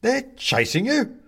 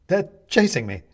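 First: Slow, high, loud question; astonished echo. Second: High, loud cry of alarm; alarmed plea. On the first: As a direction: stretch YOU upward in disbelief. Man echoes Benedict in question. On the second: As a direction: urgently tell them you are being chased. Benedict pleads at the door. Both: A narrator's reading.

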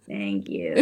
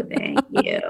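First: Deep croaky fry on thank you; vocal fry. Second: Very deep fry on thank you, dropped low; vocal fry. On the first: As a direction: lean into the gravelly fry. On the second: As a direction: push the croak down into fry. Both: Shown as a demonstration. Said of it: "I'm kinda into it".

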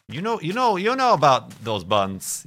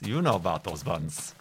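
First: High, loud sing-song tease; playful mock-accusing lilt; teasing. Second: Said in the usual way. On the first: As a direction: draw it out like a knowing tease. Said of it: "teasing exaggerated delivery". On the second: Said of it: "repeated quieter take".

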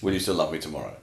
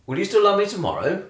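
First: "Will you still love me tomorrow?" said flat and falling; flat statement. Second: Tomorrow? lifted as a real question; questioning rise. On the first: Quoting the song title as a flat statement, falling. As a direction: say "tomorrow" falling, no upturn at the end. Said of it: "doesn't involve going up at the end". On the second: Asking [name]'s line back as an open question with a rise. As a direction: ask "Will you still love me tomorrow?" with a rising end. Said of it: "You accented". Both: Shown as a demonstration.

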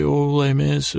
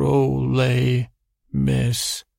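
First: Said in the usual way. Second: "Ole Miss" with a clear pause between "Ole" and "Miss"; split name. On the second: Shown as a demonstration. Asking the mole person which name, "Ole ... Miss" split in two. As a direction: slowly separate "Ole" from "Miss" to check the name. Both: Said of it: "did you say Ole Miss or".

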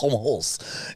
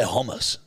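First: "Hummus" with a drawn-out rasped KH start; mock throaty hummus. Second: Said in the usual way. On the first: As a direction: exaggerate "Hummus" as KHOM-ous. Mimics the throaty pronunciation. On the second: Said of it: "Yeah, no, I say hummus".

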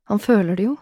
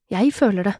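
First: "føler" lifted in "Han føler det jo"; stress on føler. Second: "Jeg" stressed, then a falling end. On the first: Woman narrating his feeling, "føler" stressed with a rise. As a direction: lean on "føler", ending with a rise. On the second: Woman narrating her own feeling, "Jeg" stressed, falling. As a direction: lean on "Jeg" and let the rest fall. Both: A narrator's reading. Contrast of he and I.

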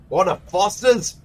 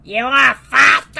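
First: Lightly Australian offer; a hint of an Aussie bloke; mock Aussie accent. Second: Higher, louder put-on Australian; copying the Aussie offer; mock Aussie echo. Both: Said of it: "I don't know what that voice was".

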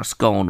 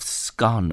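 First: "scone" with a long O, as in bone; scone rhyming with bone. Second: "scone" with a short open O, as in gone; scone rhyming with gone. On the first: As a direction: say "scone" to rhyme with tone. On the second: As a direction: say "scone" to rhyme with on. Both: Shown as a demonstration. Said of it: "Some people call it a scone".

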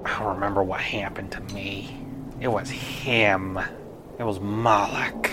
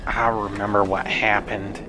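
First: Haunted whisper, barely there; eerie whisper. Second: Said in the usual way. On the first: Acted. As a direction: breathe the memory like a ghost. Ghost recalls its death.

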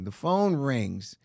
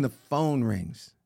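First: Even slower, low repeat; dramatic slow. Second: Slow, low storytelling beat; dramatic slow. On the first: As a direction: stretch each word for suspense. Repeats for suspense. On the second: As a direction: draw it out for suspense. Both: Retold or imitated.

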